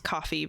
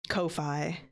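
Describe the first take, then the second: First: It is said like the word coffee. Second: It is said rhyming with lo-fi. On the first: "which people pronounce coffee" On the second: "it looks like lo-fi"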